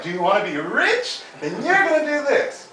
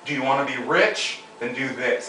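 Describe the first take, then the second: First: High rising unsure voice; mocking upspeak. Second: Level, falling firm statement; firm downstroke. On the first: Coach shows how business coaches never talk, high. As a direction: parody the weak upstroke. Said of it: "It's never like". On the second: Coach quotes business coaches, firm downstroke. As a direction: command it, no rise. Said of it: "my business coaches are like". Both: Shown as a demonstration.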